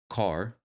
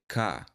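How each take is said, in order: First: The final R sound is clearly pronounced. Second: The final R sound is dropped. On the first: "When I might say car" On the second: "a Southern person might say ka"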